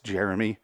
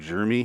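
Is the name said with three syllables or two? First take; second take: three; two. First: The name is said with all three syllables. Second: The name is squeezed into two syllables. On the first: The speaker calls it right. "It's Jeremy. It's not G-E-R-M-Y" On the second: The speaker calls it wrong. "drives me fucking crazy when people pronounce it that way"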